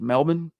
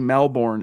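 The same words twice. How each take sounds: First: It is pronounced the local, non-American way. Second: It is pronounced the way an American would. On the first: The speaker calls it right. "but it's Melbourne?" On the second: The speaker calls it wrong. "You want to say Melbourne as an American"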